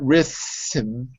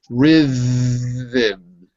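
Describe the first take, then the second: First: The TH sound is voiceless, like in thin. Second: The TH sound is voiced, like in the. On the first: The speaker calls it wrong. "not voiceless" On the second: The speaker calls it right. "The T H is voiced"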